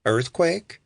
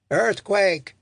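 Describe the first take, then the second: First: "Earthquake" rising at the end as a question; questioning guess. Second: High, louder warning cry; alarmed shout. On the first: Robert guesses at what happened, "Earthquake" with a questioning rise. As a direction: offer "Earthquake" as an unsure guess, pitch lifting. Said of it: "Robert shrugged". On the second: Someone on the platform warns everyone, shouting. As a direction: call out in alarm, pitched up. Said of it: "someone shouted". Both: A narrator's reading.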